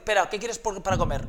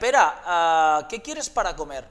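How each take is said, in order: First: It runs on with no pause after 'Pera'. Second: It starts slowly with a pause after 'Pera'.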